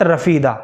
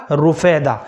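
First: رفیدہ as "ra-fee-da", a after R; رفیدہ with zabar, "ra-fee-da". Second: رفیدہ as "ru-fay-da", u after R; رفیدہ with pesh, "ru-fay-da". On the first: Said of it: "را کے اوپر زبر کے ساتھ رفیدہ". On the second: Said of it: "را کے اوپر پیش کے ساتھ تھا". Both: Shown as a demonstration.

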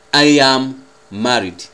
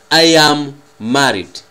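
The two takes are said the same way.

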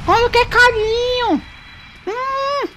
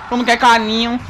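First: Put-on high, slow baby voice on "Quando quer carinho"; sing-song pet talk; cutesy baby talk. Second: Said in the usual way. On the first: Shown as a demonstration. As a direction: coo it like talking to a puppy. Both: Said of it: "repeats in cutesy voice".

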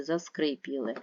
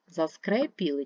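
First: "заскрипіли" with a clear и after скр; unstressed vowel as и. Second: "заскрепіли" with a clear е after скр; unstressed vowel as е. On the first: Teacher offering pupils the other spelling, clear и in заскрипіли. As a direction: say заскрипіли with и before the stressed і. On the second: Teacher offering pupils the doubtful spelling, clear е in заскрепіли. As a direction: say заскрепіли with е before the stressed і. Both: Shown as a demonstration. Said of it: "треба не наголошений зробити наголошене".

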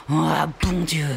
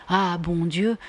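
First: Put-on juron lancé vers l'horizon, accent sur bon; « Ah, bon Dieu » jeté avec défi; juron exaspéré. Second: « Ah, bon Dieu » singé avec ironie, montée sur Dieu; imitant le juron. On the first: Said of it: "de jurer, «Ah, bon Dieu»". (Phil défie l'horizon, juron exaspéré) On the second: Retold or imitated. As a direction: moquerie légère du juron de Phil. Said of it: "de tendre les deux bras et de jurer". (Vinka singe le juron de Phil, moqueuse)

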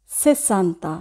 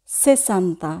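No difference in how they are said.

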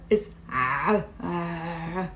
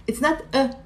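First: "A" pressed low from the throat, like a strangled ah; ain sound. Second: Said in the usual way. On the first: Shown as a demonstration. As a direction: squeeze "A" deep in the throat.

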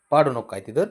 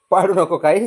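First: Said in the usual way. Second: पाडू said louder, a sharper don't-knock-it-over; firmer warning. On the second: Real, not acted. Warning the pet louder not to knock things down.

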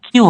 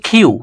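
First: Said in the usual way. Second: কিউ with a puffed "kh", "khyu"; aspirated Q. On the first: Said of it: "কিউ হবে না". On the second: Shown as a demonstration. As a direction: puff air after the k in কিউ. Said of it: "হবে হচ্ছে". (কিউ-কে "খিউ" উচ্চারণ)

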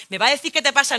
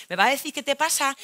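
First: Louder, stressing qué; louder demand. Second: Said in the usual way. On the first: Acted. Girlfriend repeating demand louder at boyfriend. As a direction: push harder on qué.

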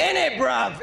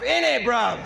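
First: Put-on a light British accent on "In it, bruv"; mock British accent aimed at the UK rapper. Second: A cheeky British echo; British slang thrown back at the opponent; British accent. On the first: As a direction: say "In it, bruv" as a London lad. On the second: Acted. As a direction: repeat "In it, bruv" in the same light British accent. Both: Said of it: "killing it with the U K accent".

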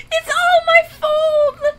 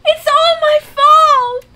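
First: High, slow sobbing repeat; crying. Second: Loud, high, slow wail of guilt; anguished cry. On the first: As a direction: sob it out, high and dragged. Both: Real, not acted. Panicked player blames herself.

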